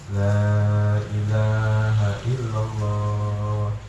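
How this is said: It is said softly and gently. The dying person is guided kindly. The speaker calls it right. "bacanya itu dengan lembut"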